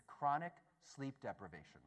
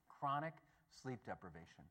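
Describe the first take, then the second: First: Said in the usual way. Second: Spaced out, dropping low and soft on "sleep deprivation."; slow deadpan repeat. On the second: Shown as a demonstration. Preacher repeats the punchline to the congregation, slow and dry. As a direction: let it land word by word, dry. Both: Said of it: "What's his definition of parenthood?".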